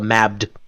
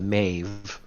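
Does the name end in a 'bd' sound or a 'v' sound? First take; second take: bd; v. First: The name ends with a b-d sound. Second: The name ends with a v sound. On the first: The speaker calls it wrong. "most people accidentally call the Mabd" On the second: The speaker calls it right. "she's the Maeve. Please stop that"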